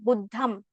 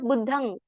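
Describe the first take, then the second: First: The word ends with an m sound. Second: The word ends with an ng sound. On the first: The speaker calls it wrong. "in Pali we don't say like Buddham" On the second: The speaker calls it right. "it is pronounced as Buddhang"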